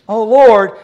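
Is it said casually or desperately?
casually. It is said casually and lightly.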